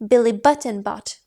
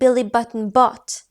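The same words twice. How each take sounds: First: The word Button carries the strongest stress. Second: The word bought carries the strongest stress. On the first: It was Button, not Smith. "Billy Smith, was it? Answer" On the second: He bought them rather than stole them. "Billy stole the bananas? Answer"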